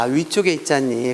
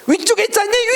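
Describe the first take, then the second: First: It is said softly, without extra force. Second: It is said harshly, with extra force. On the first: The speaker calls it right. "그럼 얼마나 부드러워" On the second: The speaker calls it wrong. "이렇게 싸납게 말할 때잖아"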